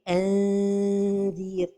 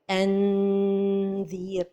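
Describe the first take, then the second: First: The n is hidden, with the tongue just near the palate. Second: The n is fully closed against the palate. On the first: The speaker calls it right. "la prononciation correcte" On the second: The speaker calls it wrong. "on va toucher le palais avec le bout de la langue"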